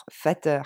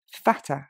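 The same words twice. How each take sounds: First: FATTER with a full French "eur" ending; French-style -er. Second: FATTER stressed on FAT, ending in a very short "uh"; short final schwa. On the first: Teacher showing learners the mistake to avoid, FATTER with a French "-eur". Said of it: "Je dis pas". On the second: Teacher modelling the right ending, FATTER as "FAT-uh". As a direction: stress the first syllable of FATTER, barely sound the -er, no R. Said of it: "c'est un son E et il est très court". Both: Shown as a demonstration.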